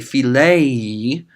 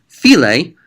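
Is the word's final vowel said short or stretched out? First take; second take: stretched out; short. First: The final vowel is drawn out long. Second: The final vowel is short and clipped. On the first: Someone else is loving. "stretch it out" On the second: It is a command to love. "pronounce it short like that"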